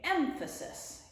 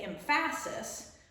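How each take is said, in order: First: The stress is on the first syllable. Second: The stress is not on the first syllable. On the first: The speaker calls it right. "It's the first syllable that we say" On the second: The speaker calls it wrong. "We don't say emphasis"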